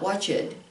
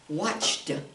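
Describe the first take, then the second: First: The ending is an extra 'id' syllable. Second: The ending is a single T sound. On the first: The speaker calls it wrong. "not watched" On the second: The speaker calls it right. "we pronounce it watched"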